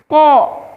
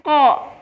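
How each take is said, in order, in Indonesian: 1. Bibir didorong ke depan dan membulat. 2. Bibir tetap terbuka dan tidak membulat. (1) "memonyongkan bibir. Itu salah"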